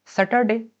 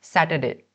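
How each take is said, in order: First: सैटरडे with a short, neutral first vowel, as most people say it; common Saturday. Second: सैटरडे with an open "ɛ" in the first syllable, like "sat"; correct Saturday. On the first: Teacher to class, giving the common सैटरडे. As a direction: say सैटरडे the everyday way, first syllable "sə". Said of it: "Generally तो सब बोलते हैं". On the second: Teacher to class, modelling the correct सैटरडे. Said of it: "का correct pronunciation क्या है". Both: Shown as a demonstration.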